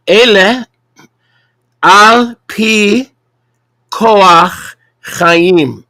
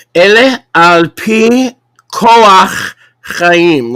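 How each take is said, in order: First: Slow, deliberate Hebrew, higher and louder; over enunciating. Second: Slow, carefully spaced Hebrew; over enunciating. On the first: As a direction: spell it out for the class. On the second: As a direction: sound out each syllable slowly. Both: Shown as a demonstration. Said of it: "Let me say that slowly".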